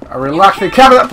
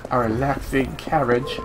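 First: Called out louder, a little impatient. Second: Said in the usual way. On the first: Shown as a demonstration. Player calling out again for a carriage, louder. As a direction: call it again so the driver hears. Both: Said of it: "I said a relaxing carriage".

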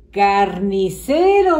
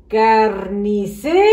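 First: Said in the usual way. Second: CARNICERO slowly as "carnice", rising, with RO held back; split-off final syllable. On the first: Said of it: "Y aquí dice". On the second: Shown as a demonstration. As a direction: leave a gap before the RO of carnicero. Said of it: "¿Qué sílaba falta?".

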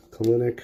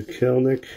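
First: "Kelenic" in three syllables, kuh-LEN-ik; probable pronunciation. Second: "Kelenic" squeezed to two syllables, KEL-nik; alternate pronunciation. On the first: Card breaker correcting a rookie's name, "Kelenic" as kuh-LEN-ik. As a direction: say "Kelenic" as kuh-LIN-ik, stress in the middle. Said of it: "It's probably Kelenic". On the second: Card breaker trying out a rookie's name, "Kelenic" as KEL-nik. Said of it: "Some people say it different". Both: Shown as a demonstration.

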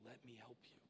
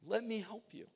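First: Much softer, tender and patient; God offering help, hushed and tender; gentle voice of God. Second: Frustrated dad. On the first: Pretend. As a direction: speak as God, soft and reassuring. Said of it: "he's up there saying". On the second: Retold or imitated. Dad pleading to help daughter.

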